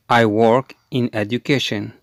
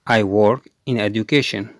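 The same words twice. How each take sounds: The two takes are said the same way.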